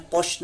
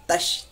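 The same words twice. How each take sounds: First: तोश with a thick, rounded "to"; heavy t demo. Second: तश with a thin t and open "a"; light t. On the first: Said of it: "तोश नहीं पढ़ना है". (तोश, मोटे तो की आवाज़) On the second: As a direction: keep तश light, "tash", unrounded. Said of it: "ये छोटा ता है". (तश, छोटे ता की बारीक आवाज़) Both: Shown as a demonstration.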